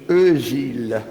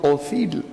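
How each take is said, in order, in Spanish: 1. Se dice con una vocal redondeada alemana. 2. Se dice con vocales españolas sencillas. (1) "cuando manifiestamente eso es Özil" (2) "diciendo Ozil al jugador del Madrid"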